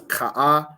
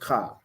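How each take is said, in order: First: The vowel is sounded twice with a break. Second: The vowel is sounded once without a break. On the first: The speaker calls it wrong. "you don't pronounce that as ka'a" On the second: The speaker calls it right. "it's just ka"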